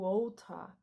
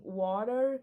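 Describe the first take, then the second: First: It is said with a British accent. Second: It is said with an American accent.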